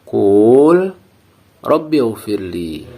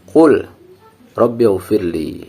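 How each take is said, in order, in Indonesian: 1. Vokal pada qul dipanjangkan. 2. Qul langsung menyambung ke rabbi dengan bunyi l yang jelas. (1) "Dengan memanjangkan bacaan antara huruf qaf dan lam itu" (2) "Dengan membunyikan huruf lam sukun sejelas-jelasnya. Baru kemudian ke huruf ra"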